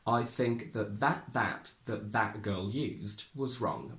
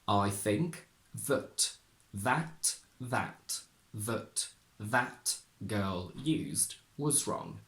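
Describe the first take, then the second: First: The sentence is spoken at normal speed. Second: The sentence is spoken very slowly. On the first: "At normal speed" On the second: "We will start very slowly"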